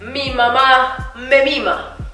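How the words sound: It is said in a declaiming, speech-making way. The speaker is campaigning for votes. "Si yo fuera un candidato político diría"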